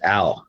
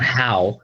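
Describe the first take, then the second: First: "ow" for how, no H at all; dropped H. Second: Said in the usual way. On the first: Shown as a demonstration. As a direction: start "ow" straight on the vowel. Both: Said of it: "it's not how, it's ow".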